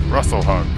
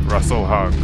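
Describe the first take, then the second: Both takes have the same delivery.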